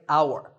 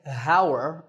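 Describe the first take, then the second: First: The h is silent; it begins with ow. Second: The word begins with a pronounced h sound. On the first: The speaker calls it right. "that H is silent" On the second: The speaker calls it wrong. "We don't say"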